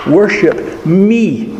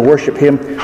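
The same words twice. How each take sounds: First: "Worship me" very slow, pitched higher, falling on me; stress on ME. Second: Said in the usual way. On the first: Shown as a demonstration. Preacher voicing God's words to the congregation, slow and higher. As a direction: voice God's claim, stretching out "me". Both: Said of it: "Instead of".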